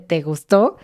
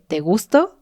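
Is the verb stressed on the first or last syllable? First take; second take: last; first. First: The verb is stressed on its last syllable. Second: The verb is stressed on its first syllable. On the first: It asks whether the listener liked it. The speaker calls it right. "En lugar de" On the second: It asks whether the listener is attracted to the speaker. The speaker calls it wrong. "le dije"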